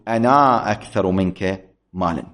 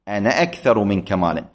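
First: The final vowel of the first word is long. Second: The final vowel of the first word is short. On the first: The speaker calls it wrong. "وليس من الصحيح أن أقول" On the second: The speaker calls it right. "هكذا تلفظ"

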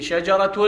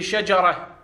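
First: The word ends with a t sound. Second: The word ends with an h sound. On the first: The word is joined to the following noun. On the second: The word stands at a pause.

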